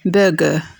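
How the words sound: It has a British accent with the R silent. "أما British accent فإن R تكون silent نقول"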